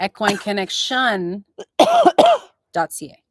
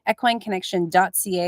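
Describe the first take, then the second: First: The address is said slowly and deliberately. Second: The address is said at a normal pace.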